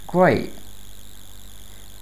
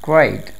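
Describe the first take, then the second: First: The t sound is dropped. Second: The t sound is clearly pronounced. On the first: "British accent में" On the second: "neutral accent में"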